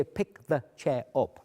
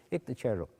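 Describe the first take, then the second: First: Said in the usual way. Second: "Pick the chair up" mumbled, words run together; slurred gobbledygook. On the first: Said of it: "I don't actually say". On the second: Shown as a demonstration. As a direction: blur "Pick the chair up" into mush. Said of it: "that's gobbledygook".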